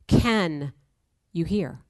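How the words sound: The stress falls on the word can.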